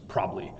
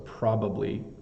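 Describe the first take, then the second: First: The word is said quickly and squeezed together. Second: The word is said slowly with all three syllables.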